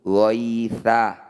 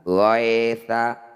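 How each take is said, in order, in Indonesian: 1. Bunyi ya itu lembut dan halus. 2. Bunyi ya itu keras dan tegang. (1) "harus dibaca lunak atau lembut"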